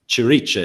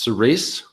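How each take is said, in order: First: The name is said with Italian reading. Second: The name is said without Italian reading. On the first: This is how a reader in Italy takes it. "I'm in Italy. ... Cirice is what I sort of read now" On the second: This is how the name is meant to be said. "It's intended to be pronounced cerise"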